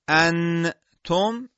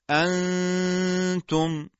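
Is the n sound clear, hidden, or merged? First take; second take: clear; hidden. First: The n is pronounced fully and clearly before t. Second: The n is a nasal hum before a single t. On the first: The speaker calls it wrong. "انتم این اظهاره" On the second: The speaker calls it right. "بلکه میگیم انتم"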